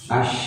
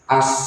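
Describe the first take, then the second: First: The final consonant is a 'sh' sound. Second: The final consonant is an 's' sound. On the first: The speaker calls it right. "nafas juga, mengalir uh, nafasnya" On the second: The speaker calls it wrong. "masih kayak huruf shin biasanya as"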